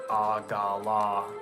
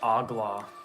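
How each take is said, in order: First: The word is said with three syllables. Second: The word is said with two syllables. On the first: "as in three syllables" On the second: "Normally I pronounce it with two syllables"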